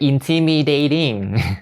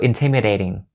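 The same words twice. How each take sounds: First: The vowels are not said as short sounds. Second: The vowels are said as short sounds. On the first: The speaker calls it wrong. "Don't say intimidating. It's gonna be really weird" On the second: The speaker calls it right. "All of those are the short E sounds"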